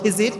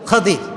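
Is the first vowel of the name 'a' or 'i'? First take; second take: i; a. First: The first vowel is an 'i' sound. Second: The first vowel is an 'a' sound. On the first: This is the common everyday form. The speaker calls it wrong. "আমরা বলি খিজির" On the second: This is the original form. The speaker calls it right. "উচ্চারণটা আসলে কি? খাদির।"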